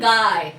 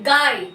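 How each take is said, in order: First: The word is said softly and gently. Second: The word is said loudly and with force. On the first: "এই যে অন্তঃস্থটা soft হয়ে যাচ্ছে, নরম সুরে বলছি" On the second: "এই যে রস্বইটাকে আমি কিন্তু জোরে বলছি"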